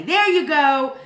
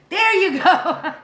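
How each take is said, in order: First: Said in the usual way. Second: Higher and slower, laughing through it. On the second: Real, not acted. Streamer repeats chat's answer, laughing. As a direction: let the laugh take over the words.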